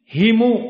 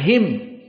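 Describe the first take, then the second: First: The word ends with a short u vowel. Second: The word ends on the m with no vowel. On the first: "dengan didomahkan"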